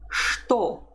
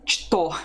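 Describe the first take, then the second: First: The word begins with an sh sound. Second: The word begins with a ch sound. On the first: "you don't say ch, you say sh" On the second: "Someone pronounces it что in Russian, but it's a dialectal form"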